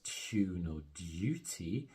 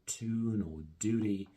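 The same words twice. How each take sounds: First: A y sound comes before the vowels. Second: No y sound comes before the vowels. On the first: "British speakers neither drop the y sound" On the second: "where American speakers also drop it"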